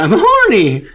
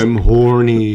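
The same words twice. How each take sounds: First: It is said in a high-pitched voice. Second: It is said in a lower, normal voice.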